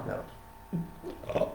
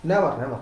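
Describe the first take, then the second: First: Whispered never. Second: Said in the usual way. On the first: Shown as a demonstration. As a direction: drop the last never to a bare whisper. Third never dropped to a whisper.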